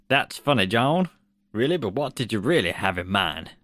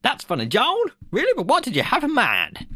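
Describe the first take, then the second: First: Mild American accent impression of Spielberg; a light put-on American voice; half-hearted Spielberg American accent. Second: Much higher American accent impression of Spielberg; squeaky hammed-up American accent. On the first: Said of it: "here's my American accent". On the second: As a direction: pitch the American accent way up, a bit louder. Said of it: "I'll do the other American accent".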